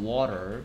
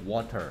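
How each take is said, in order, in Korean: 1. 이 단어는 느슨하고 편하게 발음돼요. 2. 이 단어는 빠르고 또렷하게 발음돼요. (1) "좀뭐 편하게 발음하면" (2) "빠르게 뭐 정확하게 발음하면"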